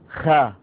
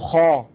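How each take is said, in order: First: The consonant is light, with the tongue lowered. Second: The consonant is heavy, with the tongue raised. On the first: The speaker calls it wrong. "ولا تقول خاء" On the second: The speaker calls it right. "فالعرب تقول خاء"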